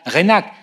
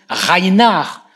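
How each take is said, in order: First: The name is pronounced the French way. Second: The name is pronounced the German way. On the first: The speaker calls it wrong. "à la prononciation à la française" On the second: The speaker calls it right. "on le prononce Reinhard"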